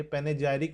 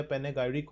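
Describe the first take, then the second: First: पेनेजाइरिक, the g softened to "jai"; soft-g pronunciation. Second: पेनेगायरिक, the g kept hard as "gai"; hard-g pronunciation. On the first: Teacher offers students one possible pronunciation, पेनेजाइरिक with a j sound. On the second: Teacher offers students the other possible pronunciation, पेनेगायरिक with a hard g. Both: Shown as a demonstration. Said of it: "pronunciation मुझे नहीं आ रही है".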